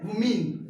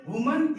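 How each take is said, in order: First: वुमेन ending in "min", falling; plural pronunciation. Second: वुमन ending in a weak "mun", rising; singular pronunciation. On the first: Teacher contrasting plural with singular, वुमेन as "WU-min". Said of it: "इसे वुमेन". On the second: Teacher contrasting singular with plural, वुमन as "WU-mun". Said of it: "इसे वुमन". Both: Shown as a demonstration.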